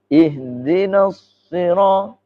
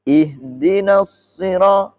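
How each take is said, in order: First: The sounds are said with rounded, pushed-forward lips. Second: The sounds are said with lips not pushed forward. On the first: "Atau yang mencucu" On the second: "Enggak mencucu kan?"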